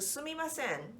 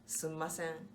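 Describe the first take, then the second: First: All four syllables su-mi-ma-sen are fully pronounced. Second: The mi syllable is dropped, leaving three syllables. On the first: It is the standard form. "the definitely the right way to say it" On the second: It is a dialect form. "How do we say it in Osaka?"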